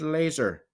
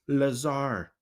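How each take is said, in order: First: The name sounds like the word 'laser'. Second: The name ends with a 'zar' sound like 'bazaar'. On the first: "I said laser" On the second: "You may also pronounce it as Lazar"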